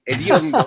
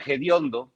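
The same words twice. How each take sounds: First: Said in the usual way. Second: "hediondo" with a J sound at the start; colloquial J pronunciation. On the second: Shown as a demonstration. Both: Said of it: "como se dice más coloquialmente".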